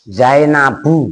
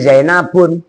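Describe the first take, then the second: First: The word ends on a vowel, no n. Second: The word ends with an added n sound. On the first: The speaker calls it right. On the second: The speaker calls it wrong.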